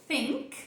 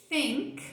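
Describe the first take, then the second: No difference in how they are said.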